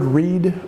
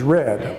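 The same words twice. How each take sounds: First: It is said as the present-tense form. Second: It is said as the past-tense form. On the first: The action happens now or habitually. "the word read" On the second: The action already happened. "The past tense is read"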